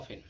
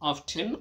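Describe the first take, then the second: First: The t sound in the middle is silent. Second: The t sound in the middle is pronounced. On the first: "বেশিরভাগ উচ্চারণ করা হয় অফেন" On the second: "অফটেন অথবা অফেন দুইটাই তুমি উচ্চারণ করতে পারো"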